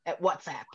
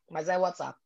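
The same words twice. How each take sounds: First: WhatsApp said the English way, wats-app; English pronunciation. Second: WhatsApp said Brazilian style, uats-a-pi; Brazilian pronunciation. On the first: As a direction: say WhatsApp as an English speaker would. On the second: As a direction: say WhatsApp the Portuguese way. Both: Shown as a demonstration. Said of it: "Como é que é o WhatsApp em inglês aí".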